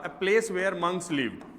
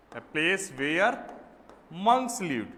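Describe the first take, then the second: First: Said in the usual way. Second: Very slow, word by word; slow dictation. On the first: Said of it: "giving the definition". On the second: Shown as a demonstration. Teacher repeating the definition slowly for notes. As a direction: stretch out each word to copy down. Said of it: "dictating the definition".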